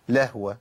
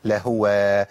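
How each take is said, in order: First: "لهوة" as lah-wa, with no u; stilled H. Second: "لهوة" as la-hu-wa, with a clear u after H; full damma. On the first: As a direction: show the easy slip in "لهوة". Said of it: "أسكنها أقول إيه؟". ("لهوة" بهاء ساكنة) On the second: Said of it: "تمكين الضمة ده مهم جدًا". ("لهوة" بتمكين ضمة الهاء) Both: Shown as a demonstration.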